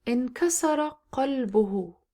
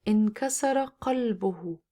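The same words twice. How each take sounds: The two takes are said the same way.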